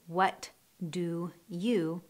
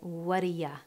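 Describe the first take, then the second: First: Each word is pronounced clearly and separately. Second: The words run together, ending in a reduced ya. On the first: "Instead of saying those three words separately" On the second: "we connect them and say"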